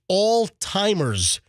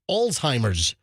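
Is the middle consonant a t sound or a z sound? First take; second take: t sound; z sound. First: The middle consonant is a t sound. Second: The middle consonant is a z sound. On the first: The speaker calls it wrong. "like A L L T I M E R at all-timers" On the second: The speaker calls it right. "No, it's Alzheimer's. Z"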